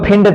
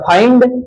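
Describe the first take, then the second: First: The vowel sounds like 'ih'. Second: The vowel sounds like 'eye'. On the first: The speaker calls it wrong. "उसको फिंड थोड़ी पढ़ते हैं" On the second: The speaker calls it right. "F I N D का फाइंड ना"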